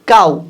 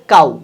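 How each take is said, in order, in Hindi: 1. शब्द का अंत oo स्वर से होता है। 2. शब्द का अंत oo स्वर से होता है।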